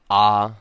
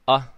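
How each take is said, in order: First: A lengthened vowel with a sharp, abrupt start. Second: A short vowel with a sharp, abrupt start. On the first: "creating a sharp sound before the vowel and a lengthened vowel sound" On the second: "an okina, right, which is going to create a sharper sound"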